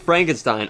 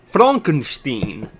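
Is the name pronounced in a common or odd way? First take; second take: common; odd. First: The name is pronounced the usual familiar way. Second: The name is pronounced in an odd, unusual way.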